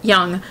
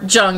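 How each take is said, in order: First: The name is given its native pronunciation. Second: The name is given an American pronunciation. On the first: "we'll go with his native one of Jung" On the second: "if you want to do the American pronunciation"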